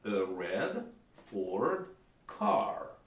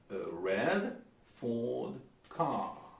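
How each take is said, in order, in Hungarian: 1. Amerikai akcentus, minden r hangot tisztán kiejtenek. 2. Brit akcentus, a Ford és a car szóban elhagyják az r hangot. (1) "Amerikaiban ... Ott minden erret mondanak" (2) "körülbelül így mondják"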